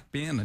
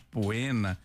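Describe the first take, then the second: First: The first syllable is said as plain 'pe'. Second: The first syllable is said as 'po-e'. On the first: The speaker calls it right. "Mas se pronuncia pena" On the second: The speaker calls it wrong. "ele diz poena, porque a gente escreve poena em latim"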